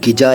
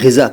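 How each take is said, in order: First: It starts with a plain g and has j. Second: It starts with a throaty gh and has z. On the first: The speaker calls it wrong. "नहीं कह रहा" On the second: The speaker calls it right. "मैं ग़िज़ा कह रहा हूँ"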